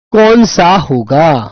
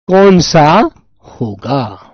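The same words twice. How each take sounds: First: Slow question. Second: Slower, softer repeat. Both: Shown as a demonstration.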